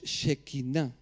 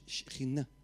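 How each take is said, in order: First: A vowel follows the first consonant. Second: No vowel follows the first consonant. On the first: The speaker calls it wrong. "Realmente no es Shekhinah" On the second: The speaker calls it right. "es Shekhinah, como debiéramos"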